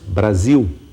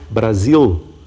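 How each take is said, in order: First: The final sound is a U-like glide. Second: The final sound is a clear L. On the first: This is the current pronunciation. "mas dizemos Brasil" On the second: This is the older pronunciation. "não dizemos mais Brasil"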